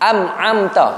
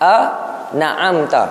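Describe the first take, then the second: First: An m sound replaces the n. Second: The n is followed by an a vowel. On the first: "Nun jadi mim" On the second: "Dia bubuh baris atas nun"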